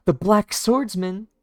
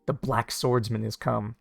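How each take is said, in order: First: Slow, much higher, louder; dramatic announcement. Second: Said in the usual way. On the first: Retold or imitated.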